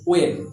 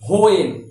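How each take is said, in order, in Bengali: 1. শব্দটি একটি সাধারণ w ধ্বনি দিয়ে শুরু হয়। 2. শব্দটি একটি শ্বাসযুক্ত h ধ্বনি দিয়ে শুরু হয়। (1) "অ্যাকচুয়ালি হোয়েন এটাকে আমরা বলবো ওয়েন" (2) "অনেকে এই হোয়েনের উচ্চারণ বলে হোয়েন, আমিও বলি হোয়েন, অ্যাকচুয়াল প্রোনাউন্সিয়েশন এটা নয়।"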